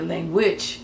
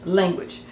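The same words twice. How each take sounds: First: "language" as lan-GUAGE; Hebrew-style "language", weight on the latter half; stress on last syllable. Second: "Language" as LAN-guage; English-style "Language", weight at the front; stress on first syllable. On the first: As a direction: push the end of "language" up. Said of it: "they stress the latter part". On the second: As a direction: hit the first half of "Language". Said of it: "or it'd be a". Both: Shown as a demonstration.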